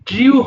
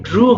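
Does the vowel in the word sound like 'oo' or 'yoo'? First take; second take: yoo; oo. First: The vowel has a 'y' glide before 'oo'. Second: The vowel is a plain 'oo' sound. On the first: The speaker calls it wrong. "ড্রিউ হবে না" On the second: The speaker calls it right. "এটাও কিন্তু ড্রু হবে"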